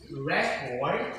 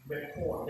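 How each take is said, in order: First: "record" as a noun, weight on the first syllable; "record" with the first syllable stressed. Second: "record" as a verb, weight on the second syllable; "record" stressed on its last syllable. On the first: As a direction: say "record" slowly as REC-ord, the noun. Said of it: "It is a first stress". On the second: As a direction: say "record" slowly as re-CORD, the verb. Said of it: "That is function as a verb". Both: Shown as a demonstration.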